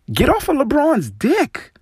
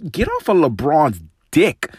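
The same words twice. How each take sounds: First: "Get off of LeBron's dick" much higher, with a sharp rise on "off"; angrier repeat. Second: "get off of LeBron's dick" raised, rising on "off"; first angry demand, pitched up; fed up. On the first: Host repeating his demand to the commentator, angrier. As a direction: repeat it, pitched up in pure exasperation. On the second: Host telling the commentator off, fed up. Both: Real, not acted.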